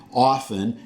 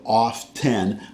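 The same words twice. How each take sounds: First: Often as OFF-en; his own pronunciation. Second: Often as off-TEN; other pronunciation. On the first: Explaining his regional habit, often as OFF-en. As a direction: say often with a silent T. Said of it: "Just like I say". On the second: Contrasting with his habit, often as off-TEN. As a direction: say often with a sounded T. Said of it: "instead of often". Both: Shown as a demonstration.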